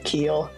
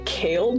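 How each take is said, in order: First: The name has the vowel of 'see'. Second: The name has the vowel of 'day'. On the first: This is how most people say the name. "the way most people will pronounce it" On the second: This is a funny mispronunciation sometimes heard. "I've gotten Kale before, which I think is pretty funny"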